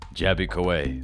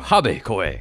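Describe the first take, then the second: First: The name begins with a clear J sound. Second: The name begins without any J sound. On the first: "it's Jabby. J- no, not silent" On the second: "In Mexico, it's silent"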